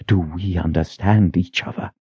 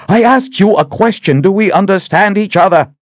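First: Quiet menace. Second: Much higher, louder demanding yell; furious shout. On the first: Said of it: "her expression twisted with menace". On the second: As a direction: scream the question at him. Sister demands an answer again. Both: Acted.

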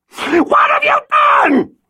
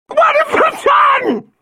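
First: High shrieking scream, slow; hysterical scream. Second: High drawn-out shriek, slow; hysterical scream. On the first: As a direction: scream it in horror. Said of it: "she cried out from the darkness". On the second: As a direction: shriek the words in terror. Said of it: "Violet screamed again". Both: Acted.

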